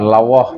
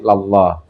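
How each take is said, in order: First: A w sound is heard inside the word. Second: No w sound is heard inside the word. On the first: The speaker calls it wrong. "Bukan lawah" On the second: The speaker calls it right. "tapi lallah"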